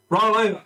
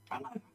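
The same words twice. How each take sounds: First: Clear, raised trick command; confident dog command. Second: Very soft, higher plea; whispery prompt to a stubborn dog; embarrassed trainer trying to go unnoticed; hushed repeated command. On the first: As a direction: give the dog its cue brightly. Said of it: "It's like, "All right". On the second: Girl repeats failed command under breath. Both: Acted.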